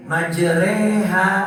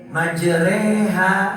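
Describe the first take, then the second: First: The vowel after the r leans toward e. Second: The vowel after the r leans toward e.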